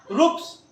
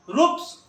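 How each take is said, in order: Both takes have the same delivery.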